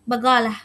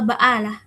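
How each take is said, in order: First: The middle consonant is a hard g sound. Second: The middle consonant is a glottal stop. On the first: "dalam aksen Jordan bagalah" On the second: "atau baalah gitu"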